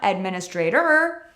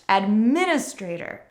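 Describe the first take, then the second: First: The final syllable is stressed. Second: The final syllable is unstressed. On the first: The speaker calls it wrong. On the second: The speaker calls it right. "it is never stressed"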